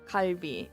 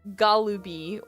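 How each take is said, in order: First: No vowel sounds between l and b. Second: An extra vowel sounds before the b. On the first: The speaker calls it right. "you have to say kalbi" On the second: The speaker calls it wrong. "you can't just say galubi or karubi"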